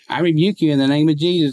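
The voice is high, light and coming from the head. The words come from the mind without inner conviction. The speaker calls it wrong. "I didn't say him up here"

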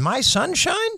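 The voice rises at the end. The speaker is asking a question. "Or was it more like a question?"

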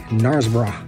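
It is said in a British accent. "if you were to say it with a British accent"

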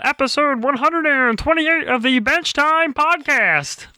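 It is said in a Kermit the Frog voice.

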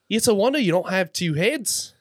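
It is said in a put-on Australian accent.

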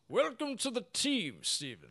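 It is said in a Gandalf-like voice.

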